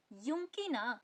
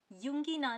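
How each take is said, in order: First: युंकी ना with a hard k, not g; corrected hard k. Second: युंगी ना with a voiced g; wrong soft g. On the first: Teacher corrects the reading, युंकी with hard k. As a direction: harden the g of युंकी into k before ना. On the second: Teacher shows the reading to avoid, युंगी with g. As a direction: say युंगी with g before ना. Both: Shown as a demonstration. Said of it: "युंगी ना नहीं".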